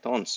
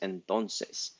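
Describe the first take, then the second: First: Only the last syllable is said, clipped short. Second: The whole word is said with all syllables. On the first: "we don't say the whole word. We're being lazy and we say tons" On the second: "the word that everyone mishears"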